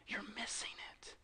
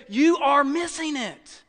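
First: Hushed, whispered repeat for weight; whispered plea. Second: "You are missing it" slow and higher-pitched; emphatic plea. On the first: Preacher voicing Jesus to the Pharisees, whispered plea. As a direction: drop right down to a whisper. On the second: Preacher voicing Jesus to the Pharisees, emphatic "You are missing it". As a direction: drive home every word of "You are missing it", slowly. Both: Acted.

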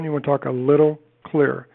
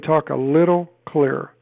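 First: Said in the usual way. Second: Slow and clear, each word louder and set apart; slow it right down and spell out every word for the caller. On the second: Shown as a demonstration. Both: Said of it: "See how I just slowed that down?".

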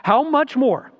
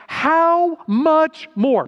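First: How much more repeated higher, still pressing; how much more again, slightly lifted; repeated emphasis. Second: How much more drawn out slow and louder; how much more stretched out with weight; stressed phrase. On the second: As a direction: lean hard on how much more, slowly. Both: Shown as a demonstration. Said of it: "put an asterisk next to that".

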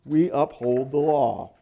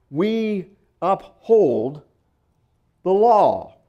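First: Said in the usual way. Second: "we" lifted and drawn out, "law" punched loud; slow emphatic "we uphold the law"; stress on we. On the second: Shown as a demonstration. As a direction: hit "we" and land hard on "the law". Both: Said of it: "put emphasis on different syllables".

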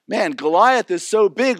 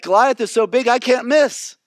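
First: Said in the usual way. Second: Confident. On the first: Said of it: "everybody's going". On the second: Retold or imitated. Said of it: "And David is like".

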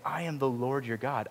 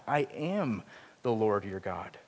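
First: Said in the usual way. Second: Slow repeat with "am" leaned on; stress on am, slower. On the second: Shown as a demonstration. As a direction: drag out the second "I am the Lord your God", pressing "am". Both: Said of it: "he even emphasizes it by saying it twice over".

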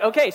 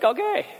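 First: Falling, accepting okay; resigned okay. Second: High, rising unsure okay; a startled question of an okay; baffled okay. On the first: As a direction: settle into it and give in. Resigned to wearing clown nose. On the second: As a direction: shopper gets handed a clown nose, baffled rising okay. Handed a clown nose. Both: Retold or imitated.

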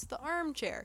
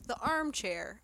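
First: "armchair" with "arm" set apart and lifted higher; air quotes on arm. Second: Said in the usual way. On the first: Shown as a demonstration. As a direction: lean on "arm" in "armchair" as if quoting it. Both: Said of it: "arm in quotes".

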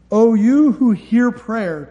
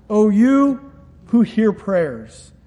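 First: Drawn out, each word weighed; slow reverent emphasis. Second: Stretched right out, "you" held; slow it way down on "O you who hear prayers"; very slow solemn emphasis. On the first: Pastor savoring God's title for the congregation, slow and solemn. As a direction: linger on "you who hear prayer" reverently. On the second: Pastor repeating God's title to his church, very slow and solemn. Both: Acted.

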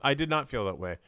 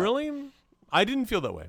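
First: Measured restatement with "not" given full weight; stress on "not". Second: Higher-pitched quick rebuttal; surprised disagreement. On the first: Co-host restating disagreement about an actor, firm stress on "not". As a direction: spell out "did not", leaning on "not". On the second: Co-host answering criticism of an actor's gravitas, surprised disagreement. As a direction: push back, lifting the pitch on "didn't". First take of disagreement, then restated. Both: Real, not acted.

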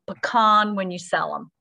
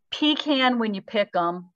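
First: Pecan as puh-KAHN; pecan with a long ah; quoting grandfather, pecan said puh-KAHN; grandfather's saying. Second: Pecan as pee-KAN; pecan with a flat a; quoting grandfather, pecan said pee-KAN; grandfather's saying. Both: Retold or imitated. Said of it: "Here's what my grandfather said".

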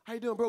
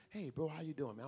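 First: Loud, brisk throwaway hello; hollow breezy greeting. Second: Unhurried, heartfelt hello; sincere greeting. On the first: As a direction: toss off a greeting without meaning it. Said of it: "That's so cliche and empty and vain". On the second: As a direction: greet like you truly mean it. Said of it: "That's not a lie". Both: Shown as a demonstration.

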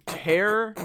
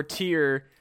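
First: "tear" said to rhyme with bear; pronounced tare. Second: "tear" said to rhyme with deer; pronounced teer. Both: Shown as a demonstration. Reads both sayings of tear.

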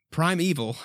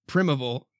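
First: Primeval said as pry-MEE-vul; pronunciation try. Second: Primeval said as PRIM-uh-bull; pronunciation try. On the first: Reader unsure of a word, trying primeval as pry-mee-vul. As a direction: primeval with long i and long e. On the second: Reader unsure of a word, trying primeval as prim-uh-bull. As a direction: primeval with a short i, first try. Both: Shown as a demonstration. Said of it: "never known the right way to say that".

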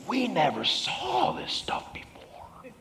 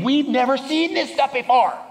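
First: Hushed, drawn-out amazement; amazed. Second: High, full-voiced amazement; amazed. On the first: Acted. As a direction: whisper it very slowly in awe. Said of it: "they were all amazed and glorified God". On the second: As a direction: exclaim it like an astonished onlooker. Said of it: "they'll say the same thing".

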